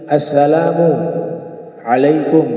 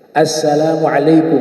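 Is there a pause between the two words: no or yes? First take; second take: yes; no. First: There is a stop between the two words. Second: The two words run together without a pause. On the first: The speaker calls it wrong. "tidak boleh berhenti assalamu alaikum, itu berhenti" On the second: The speaker calls it right. "Dia harus satu napas, al-muwalah, berkesinambung"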